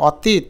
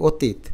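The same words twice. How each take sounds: First: অতীত with open 'aw' first; spelling pronunciation. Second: অতীত with rounded 'o' first; ও sound at the start of অতীত; natural pronunciation. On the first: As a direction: say অতীত slowly as 'aw-teet'. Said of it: "কীভাবে উচ্চারণ করি". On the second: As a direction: say অতীত as 'o-teet'. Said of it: "তাহলে লিখব ও". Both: Shown as a demonstration.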